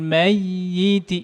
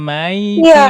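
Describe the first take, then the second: First: The y sound is doubled and held longer. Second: The y sound is single and short. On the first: The speaker calls it right. "Ini ada naber semua nih" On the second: The speaker calls it wrong. "bukan hanya maiti, bukan"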